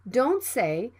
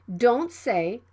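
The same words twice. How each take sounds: The two takes are said the same way.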